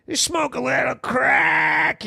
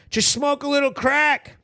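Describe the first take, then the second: First: Hammed-up sarcastic encouragement; exaggerated mock advice. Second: Said in the usual way. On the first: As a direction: stretch CRACK out in a silly holler.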